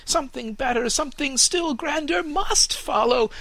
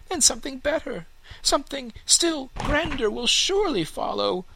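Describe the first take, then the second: First: High, louder, pressing fir tree voice with stress on must; the young tree now insisting it must come; urgent young fir tree; insistent fir tree. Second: High, dreamy hopeful tree voice; a young tree picturing its future; hopeful young fir tree. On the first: Fir insists on grander things. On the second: Fir imagines grander things. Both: Acted.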